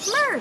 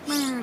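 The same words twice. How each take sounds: First: The word is said in a happy tone. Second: The word is said in a sad tone. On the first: The speaker is feeling cheerful. "that would be happy" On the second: The speaker is feeling down. "that would be sad"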